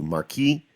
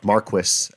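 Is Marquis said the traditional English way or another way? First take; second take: another way; traditional English. First: It is said a non-traditional, non-English way. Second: It is said the traditional English way. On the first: "as opposed to" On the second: "the Final Fantasy twelve and traditional English pronunciation of Marquis"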